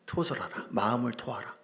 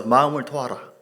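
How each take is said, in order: First: Said in the usual way. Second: Louder call-and-response line; loud repeat. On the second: Shown as a demonstration. Preacher leading the congregation in repeating, loud. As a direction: proclaim it for the congregation to echo. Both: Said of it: "따라서".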